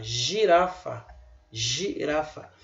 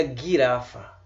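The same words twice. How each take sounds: First: Girafa said slowly with a soft j sound; slow demo. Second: Guirafa with a hard g as in gato; wrong hard g. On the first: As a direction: drawl girafa, g as in j. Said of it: "pronuncia o G aqui como se fosse J". (pronúncia lenta com g como j) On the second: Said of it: "Você não pronuncia guirafa". (g duro, pronúncia errada) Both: Shown as a demonstration.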